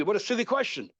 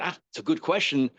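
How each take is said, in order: First: Mild angry tone. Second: Even, unhurried acknowledgement at normal pitch; calm approval. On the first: Teacher mimicking his reply to pupil's obvious question, mildly angry. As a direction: act mildly annoyed, pitching it up. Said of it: "then I will get angry". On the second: Teacher showing pupil his question is good, calm. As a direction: take the question calmly. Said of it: "if I say it very calmly". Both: Shown as a demonstration.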